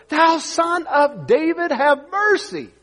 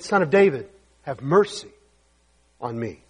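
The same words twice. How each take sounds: First: High, slow drawn-out plea; crying out harder. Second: Said in the usual way. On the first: Acted. Blind man pleading over the rebuking crowd, crying out. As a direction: stretch the cry out, pitched high. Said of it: "he cried so much the more". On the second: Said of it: "He said".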